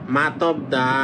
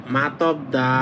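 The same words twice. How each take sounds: Both takes have the same delivery.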